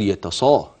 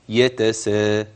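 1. صوت s ثقيل ومفخم. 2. صوت s خفيف ورقيق. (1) "اوعى تقول" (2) "الترقيق"

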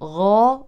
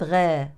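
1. الغين مفخَّمة، واللسان مرتفع من الخلف. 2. الغين مرقَّقة، واللسان منخفض من الخلف. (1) "إذا نقول غا" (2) "وليست غا"

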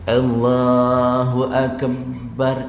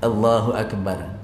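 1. Frasa itu diucapkan lambat, suku kata demi suku kata. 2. Frasa itu diucapkan cepat dalam satu tarikan. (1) "Itu saya pelan-pelan tu" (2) "Tapi kalau laju, begini"

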